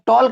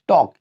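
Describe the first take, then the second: First: The L sound is pronounced. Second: The L sound is silent. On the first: The speaker calls it wrong. "आप टॉल्क मत पढ़िएगा क्योंकि एल is silent before के" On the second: The speaker calls it right. "हम लोग बोलते हैं टॉक"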